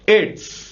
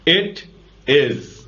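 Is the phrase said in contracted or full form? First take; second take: contracted; full. First: The two words merge into one short syllable. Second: Both words are said separately in full.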